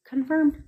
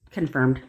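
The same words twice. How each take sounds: First: High delighted repeat; triumphant. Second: Said in the usual way. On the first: Real, not acted. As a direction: say it like you won. Repeated, much higher.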